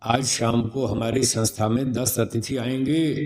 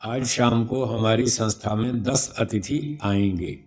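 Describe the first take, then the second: First: आएंगे kept up, rising as if more follows; raised sentence ending. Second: Slow sentence with आएंगे stepping down in pitch; falling sentence ending. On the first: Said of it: "अगर इसको यूँ बोला जाए". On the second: Teacher demonstrates a completed sentence, आएंगे falling. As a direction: finish it off by lowering आएंगे. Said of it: "आएंगे नीचे हो गया ना". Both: Shown as a demonstration.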